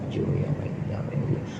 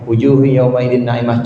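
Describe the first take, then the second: First: It is said in a soft, quiet voice. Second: It is said in a clearly audible voice.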